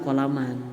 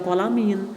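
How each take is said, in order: First: The word ends with an a vowel. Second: The word ends with an i vowel. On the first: The speaker calls it right. "tetapi dibaca kolaman" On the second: The speaker calls it wrong. "tidak dibaca kolamin"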